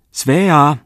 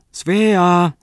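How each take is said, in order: First: Loud, much higher call from afar; lady calling the girl from behind the alders. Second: Second call pitched even higher; lady calling the girl again, louder and higher. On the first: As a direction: call her name across the grove. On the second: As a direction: stretch the name out as a held call. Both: A narrator's reading. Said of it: "kaikui rouvan ääni lepikon takaa".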